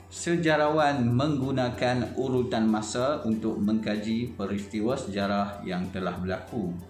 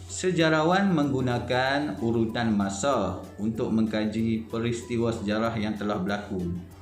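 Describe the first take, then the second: The two takes are said the same way.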